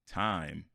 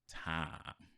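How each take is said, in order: First: The vowel is said plainly, without Southern stretching. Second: The vowel is stretched and bent in a Southern way. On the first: "Instead of saying time" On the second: "it turns into time"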